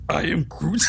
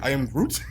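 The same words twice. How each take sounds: First: It is said in a put-on Groot voice. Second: It is said in his normal voice.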